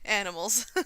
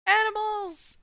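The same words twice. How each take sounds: First: Said in the usual way. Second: High, loud burst of excitement; excited. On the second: Real, not acted. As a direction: shout it out with delight. Excited reading of a feature.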